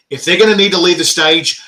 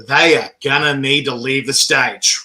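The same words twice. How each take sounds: First: Said in the usual way. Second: "are" stressed, slow and deliberate phrase. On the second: Retold or imitated. Telling the crew about the contestants, slow stress on "are". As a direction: lean firmly on "are", slowing right down.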